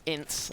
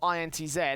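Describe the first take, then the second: First: The name ends with an S sound. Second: The name ends with a Z sound. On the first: "as some people call it" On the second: "I'm going to call them I N T Z"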